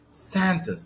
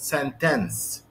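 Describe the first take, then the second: First: The stress is on the first syllable. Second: The stress is on the second syllable. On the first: The speaker calls it right. "The stress is on the first syllable. So I say sentence" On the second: The speaker calls it wrong. "not sentence"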